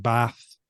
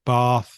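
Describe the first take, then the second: First: "Bath" with a short northern a; short-vowel Bath. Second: "Bath" with a long southern ah; long-vowel Bath. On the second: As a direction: say "Bath" as bahth. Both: Shown as a demonstration. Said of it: "That's probably the biggest difference".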